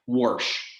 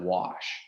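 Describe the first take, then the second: First: It is said with an inserted r, Pittsburgh style. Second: It is said without an r, in standard style.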